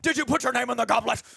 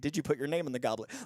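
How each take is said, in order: First: The question is asked in an agitated way. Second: The question is asked in a calm way.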